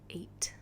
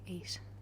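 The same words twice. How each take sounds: First: The final t is hard. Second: The final t is soft. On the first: "instead of saying eight" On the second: "they have this very soft t sound"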